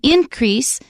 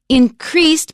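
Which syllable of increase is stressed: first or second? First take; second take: first; second. First: The stress is on the first syllable. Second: The stress is on the second syllable. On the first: It is used as a noun. "that's a noun, stresses on the first syllable" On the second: It is used as a verb. "because it's a verb, we stress the second syllable"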